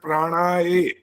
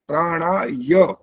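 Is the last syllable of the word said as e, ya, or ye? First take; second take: e; ya. First: The word ends in a plain 'e' vowel. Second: The word ends in a clear 'ya' sound. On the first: The speaker calls it wrong. "ए बोला ... दोनों गलत है" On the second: The speaker calls it right. "य का उच्चारण बिल्कुल स्पष्ट होना चाहिए"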